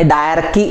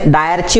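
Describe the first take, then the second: First: The 'ch' is said like 'k' in 'key'. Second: The 'ch' is said like 'ch' in 'chair'. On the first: The speaker calls it right. "डायरकी असं त्याचं pronunciation आहे" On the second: The speaker calls it wrong. "इंग्लिशमध्ये डायरची वाचत नाही"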